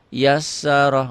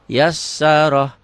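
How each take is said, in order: No difference in how they are said.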